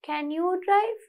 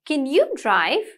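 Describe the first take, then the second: First: The pitch stays flat with little variation. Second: The pitch moves with clear question intonation. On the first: The speaker calls it wrong. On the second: The speaker calls it right. "Intonation. There should be intonation, variation in your voice"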